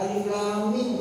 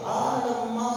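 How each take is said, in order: First: Said in the usual way. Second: "alam ma" with long drawn-out vowels; higher, slow mock recitation of "alam ma"; mock misreading. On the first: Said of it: "nggak Alif Lam Mim itu nggak benar". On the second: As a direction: read the letters as a word, stretching "alam ma". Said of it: "saya orang Medan, saya pakai alam ma".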